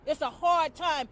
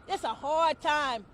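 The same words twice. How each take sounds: The two takes are said the same way.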